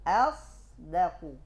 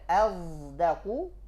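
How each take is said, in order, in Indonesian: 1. Konsonan pertama adalah bunyi s tak bersuara. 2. Konsonan pertama adalah bunyi z bersuara. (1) "Berdiri sendiri dia" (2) "Tak boleh azdaku"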